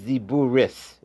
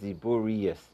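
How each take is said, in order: First: The word ends with a short 'ris' sound. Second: The word ends with an extra 'rius' syllable. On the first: The speaker calls it right. "you're saying it's Ziburis" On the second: The speaker calls it wrong. "instead of Ziburius"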